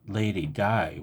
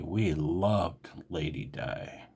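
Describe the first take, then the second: First: Said in the usual way. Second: Softer and slower, a wistful sigh of a line; sadly. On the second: Real, not acted. To viewers, mourning the Queen, soft and sad. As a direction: let the loss sink into it quietly. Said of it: "I'm very emotional right now".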